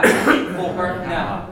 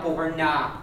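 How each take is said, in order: First: Boher na with a quick, weak na; slow boher na with na reduced; unstressed na. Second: Boher na with na said full and stressed. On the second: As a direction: hit na in boher na. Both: Shown as a demonstration. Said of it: "not boher na".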